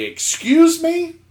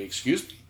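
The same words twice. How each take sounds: First: High, slow, indignant rising question; exaggerated affronted query, drawn out. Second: Soft, polite rising question; quietly ask, sort of dumbfounded; hushed, courteous bewilderment. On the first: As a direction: act out taking loud offence. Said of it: "But actually, I say it very politely". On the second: Retold or imitated. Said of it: "I say it very politely".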